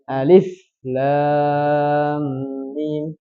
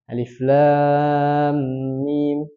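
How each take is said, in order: First: Each letter name is said separately and lengthened. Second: The letter names run together without lengthening. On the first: The speaker calls it right. "Alif la dinaberkan" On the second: The speaker calls it wrong. "Jangan alif lam mim"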